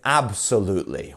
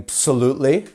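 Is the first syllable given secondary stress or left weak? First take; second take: stressed; weak. First: The first syllable carries a secondary stress. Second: The first syllable is weak and unstressed. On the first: The speaker calls it right. "We're, we're pronouncing that first bit as well" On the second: The speaker calls it wrong. "we're not saying absolutely"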